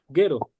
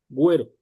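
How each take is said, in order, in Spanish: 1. La u es muda después de la g. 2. La u suena después de la g. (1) "se lee guero, guero, porque sabemos que después de la G necesitamos una U seguida de una vocal para eh, mezclar el sonido de la G y la vocal" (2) "la U adquiere su propio sonido o recupera su propio sonido"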